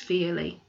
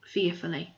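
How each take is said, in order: First: "fearly" read as a slip for fearfully; misread word. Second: "fearfully" said in full as the fix; corrected word. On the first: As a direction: stumble and say "fearly". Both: A narrator's reading.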